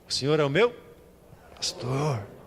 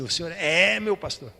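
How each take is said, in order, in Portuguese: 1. A palavra 'pastor' recebe a ênfase. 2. A palavra 'é' recebe a ênfase. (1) "Agora se é no pastor a ênfase" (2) "Agora a ênfase é no é"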